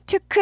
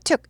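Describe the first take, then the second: First: The word is drawn out, not cut short. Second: The word is clipped short, staccato. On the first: The speaker calls it wrong. "took 하지 않고" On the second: The speaker calls it right. "여기도 스타카토 있는 거죠"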